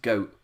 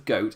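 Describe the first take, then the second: First: The final t becomes a catch in the throat. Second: The final t is clearly released. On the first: "the letter T just disappears" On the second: "it's not a goat"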